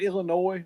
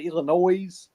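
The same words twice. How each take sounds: First: The word ends without an s sound. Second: The word ends with an s sound. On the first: "I call it Illinois" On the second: "A lot of people say Illinois"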